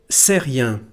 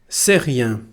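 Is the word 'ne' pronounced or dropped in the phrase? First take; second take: dropped; dropped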